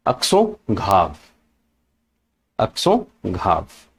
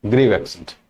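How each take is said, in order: First: "Accent grave" slowly, French way, "ak-so grahv"; French pronunciation. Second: "grave accent" said the English way, "grayv"; English pronunciation. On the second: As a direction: say "grave" with an "ay" vowel. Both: Shown as a demonstration. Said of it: "In English we call it".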